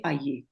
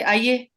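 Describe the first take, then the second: First: Said in the usual way. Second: Higher, louder "Aaiye" with a tinge of arrogance; curt, unwelcoming "Aaiye"; arrogant, unwelcoming. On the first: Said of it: "I didn't change the word". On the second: Shown as a demonstration. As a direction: say "Aaiye" rudely, as if uninterested. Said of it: "tinge of arrogance in my tone".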